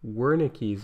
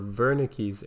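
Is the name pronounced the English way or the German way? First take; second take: English; German. First: The name has an anglicized pronunciation. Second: The name has a German-style pronunciation.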